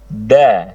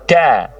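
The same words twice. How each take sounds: First: The consonant is pressed firmly, with no hiss. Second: The consonant is released with a hissing breath. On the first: The speaker calls it right. "ditahan nafasnya, kemudian ditekan yang kuat" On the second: The speaker calls it wrong. "bukan da, da, bukan gitu"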